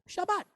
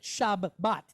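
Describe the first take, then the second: First: The word is said smoothly without any break. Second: The word is split with a break between syllables. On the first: The speaker calls it right. "We just say Shabbat" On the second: The speaker calls it wrong. "we don't pronounce it shab, bat"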